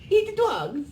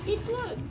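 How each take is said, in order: First: It is said in a put-on Russian accent. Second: It is said in the speaker's plain accent.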